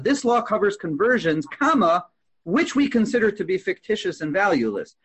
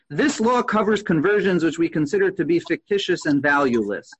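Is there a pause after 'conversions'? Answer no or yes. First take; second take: yes; no. First: It breaks after 'conversions' before 'which'. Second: It runs on with no break after 'conversions'.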